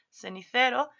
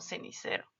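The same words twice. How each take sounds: First: The c's have a sound different from s. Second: The c's are pronounced as an s sound. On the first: The speaker calls it right. "lo que debería ser cenicero" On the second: The speaker calls it wrong. "lo pronunciamos como cenicero"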